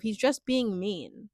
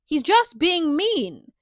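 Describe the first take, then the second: First: Said in the usual way. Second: "He's just being mean" louder, higher and drawn out; "just being mean" stressed hard, with raised pitch and volume; emphatic repeat. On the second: Real, not acted. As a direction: slowly punch each word of "He's just being mean".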